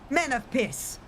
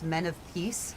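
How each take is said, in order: First: It is said in an exaggerated Spanish accent. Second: It is said in a plain, ordinary accent. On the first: "a very bad, like m- medieval Spanish accent" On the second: "he says the words"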